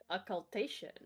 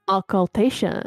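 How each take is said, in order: First: It is said in a clear, plain voice. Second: It is said in a muffled, creepy voice.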